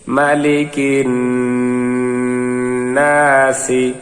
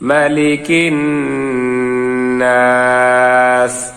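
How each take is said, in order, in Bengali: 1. এটি একটি হ্রস্ব শেষ i স্বরে শেষ হয়। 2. এটি s ব্যঞ্জনে শেষ হয়, কোনো স্বর নেই।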